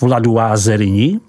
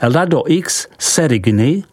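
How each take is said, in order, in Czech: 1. Jméno se říká s francouzskými hlásky. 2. Jméno se čte tak, jak se píše.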